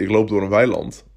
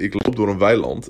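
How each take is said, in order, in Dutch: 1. Het wordt vlak voorgelezen, zonder betrokkenheid. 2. Het wordt voorgelezen met levendige, betrokken expressie.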